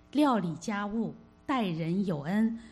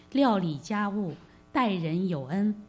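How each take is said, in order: No difference in how they are said.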